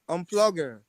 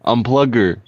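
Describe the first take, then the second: First: Unplugger with stress on plug and a falling end; correct pronunciation. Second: Unplugger in an American accent, stress on plug; copying the word. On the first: Friend correcting the word for [name], clear and firm. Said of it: "No, no, no". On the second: [name] repeating the word in his accent, American. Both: Shown as a demonstration.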